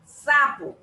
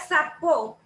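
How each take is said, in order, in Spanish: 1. El acento está en la primera sílaba. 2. El acento está en la última sílaba. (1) "Usted la pronuncia sapo" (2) "si dijera sapo, fuera una palabra como aguda con acento en la O"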